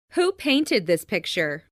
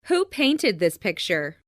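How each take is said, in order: Both takes have the same delivery.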